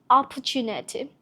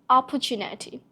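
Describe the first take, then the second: Both takes have the same delivery.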